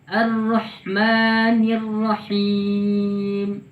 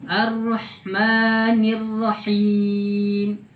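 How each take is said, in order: Both takes have the same delivery.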